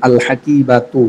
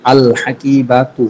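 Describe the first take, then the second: First: Said in the usual way. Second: আল হাকিবাতু drawn out very slowly, each sound clear; slow demo. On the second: Shown as a demonstration. Teacher slowly models আল হাকিবাতু for students. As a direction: spell out আল হাকিবাতু slowly for learners.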